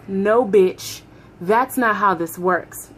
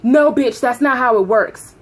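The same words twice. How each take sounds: First: Slower, deliberate retelling of a refusal; measured retold refusal. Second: Mock supervisor snapping loudly; loud angry refusal. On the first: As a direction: lay it out word by word, slowly. Repeats the refusal, more measured.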